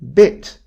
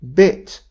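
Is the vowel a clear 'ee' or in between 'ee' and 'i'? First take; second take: in between; in between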